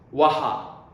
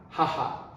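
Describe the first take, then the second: First: The word begins with a w sound. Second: The word begins with an h sound. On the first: The speaker calls it wrong. "we don't say" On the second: The speaker calls it right. "we also pronounce ha"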